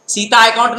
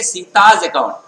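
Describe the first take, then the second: First: "सीता account" with no s sound after सीता; wrong form without possessive. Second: "सीताज account" with a voiced z closing सीताज; correct possessive form. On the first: Teacher shows students what not to say, "सीता account" without the possessive s. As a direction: say "सीता account", सीता ending on its open aa vowel. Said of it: "नहीं बोलेंगे". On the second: Teacher models the right account name, "सीताज account" with possessive z sounded. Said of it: "क्या बोलेंगे?". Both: Shown as a demonstration.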